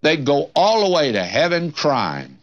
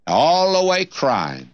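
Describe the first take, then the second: First: Said in the usual way. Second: "all the way crying" drawn out slowly, each word weighted; slow emphatic repeat. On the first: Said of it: "repeats the phrase". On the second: Real, not acted. Preacher warning the comfortable congregation, slow and weighty. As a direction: lean hard on "all the way crying". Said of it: "repeated for emphasis".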